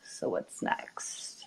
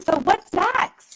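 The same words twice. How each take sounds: First: It is said wearily, with a heavy sigh. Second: It is said with excited, eager energy.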